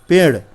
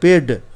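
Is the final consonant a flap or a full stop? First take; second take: flap; stop. First: The tongue flaps without fully touching the palate. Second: The tongue touches the palate in a full stop. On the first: The speaker calls it right. "जब बिंदु लग जाता है ना उसमें, तो ये ड़ हो जाता है" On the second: The speaker calls it wrong. "अब बिंदु नहीं लगाए ... तो क्या हो जाएगा"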